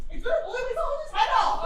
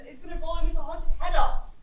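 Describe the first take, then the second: First: The line gonna blow Mister Hodges' head off cried out high, laughing; shouted with a laugh. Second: Said in the usual way. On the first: Acted. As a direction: shout it again, half laughing. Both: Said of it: "repeat louder".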